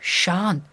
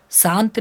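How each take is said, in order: First: शांत with a clear "sh" at the start; teacher modelling शांत with a hushing first sound; correct palatal श. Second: शांत said with a plain "s", as "saant"; wrong-example शांत, starting "saa"; mispronounced श. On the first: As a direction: say शांत as "shaant", tongue toward the palate. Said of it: "शांत नहीं होता है". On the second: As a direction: swap the "sh" of शांत for a hissed "s". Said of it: "नहीं होता है". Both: Shown as a demonstration.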